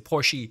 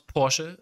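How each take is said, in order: First: It is said with an American English pronunciation. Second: It is said with the original German pronunciation. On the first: The speaker calls it wrong. "when I talk in English in general, I'm gonna say Porsche or some some stupid stuff like that" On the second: The speaker calls it right. "I know how to pronounce Porsche, like the original saying"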